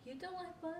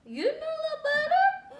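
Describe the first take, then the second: First: Quiet question. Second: High, slow, mock-astonished question; mock shock. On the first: Real, not acted. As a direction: murmur it gently. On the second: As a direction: play up the disbelief.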